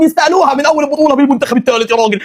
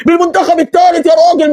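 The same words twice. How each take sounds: First: Said in the usual way. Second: Excited shout. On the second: Real, not acted. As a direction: punch الثالث with a shout. Fan repeats the phrase, shouting it.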